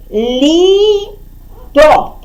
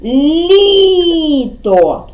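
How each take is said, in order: First: ЛІТО split into лі and то, pause between; slow separate syllables in Літо. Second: ЛІТО joined up, with a long drawn-out ЛІ; stress on first syllable. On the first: Teacher dividing the answer for children, ЛІТО syllable by syllable. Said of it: "Літо ділимо на склади". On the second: Teacher setting the stress with children, long ЛІ in ЛІТО. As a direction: stretch the first syllable of Літо, then fall. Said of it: "Ставимо наголос". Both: Shown as a demonstration.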